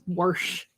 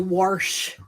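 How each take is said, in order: First: The word has no R sound before the sh. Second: The word has an R sound before the sh. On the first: The speaker calls it right. "It's wash" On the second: The speaker calls it wrong. "I've got friends that say wash. There is no R in wash"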